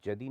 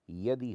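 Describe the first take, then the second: First: जदि starting with a j. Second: Said in the usual way. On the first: Shown as a demonstration. Teacher shows what people say, जदि with j. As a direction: say jadi for yadi, जदि. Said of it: "नहीं होता". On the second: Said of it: "होता है".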